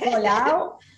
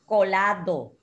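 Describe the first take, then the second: First: The word ends without the d sound. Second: The word ends with the d sound. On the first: This is the everyday form people use. The speaker calls it wrong. "Colau is not, well, we adopt that terminology" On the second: This is the proper form of the word. The speaker calls it right. "But supposed to say colado"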